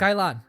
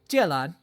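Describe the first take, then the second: First: It is said with a Cantonese pronunciation. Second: It is said with a Mandarin pronunciation.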